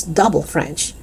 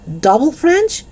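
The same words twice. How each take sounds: First: Said in the usual way. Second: Incredulous, high-pitched "Double French?"; appalled echo. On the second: A narrator's reading. Dennis echoes news in dismay.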